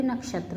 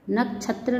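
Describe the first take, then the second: First: Said in the usual way. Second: नक्षत्र with chh for sh; mispronounced. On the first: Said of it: "बल्कि नक्षत्र होता है". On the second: Shown as a demonstration. Teacher showing students an error, नक्षत्र mispronounced with chh. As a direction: say नक्षत्र as "nak-chhatra". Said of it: "नहीं होता".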